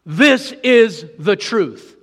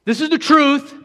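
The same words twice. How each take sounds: First: Slow, weighty words, each one stressed; slow solemn repeat. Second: Louder and higher, proclaiming the truth; emphatic declaration. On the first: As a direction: say it again slowly, letting it sink in. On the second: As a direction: declare it boldly. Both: Shown as a demonstration. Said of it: "That's in effect what he's saying".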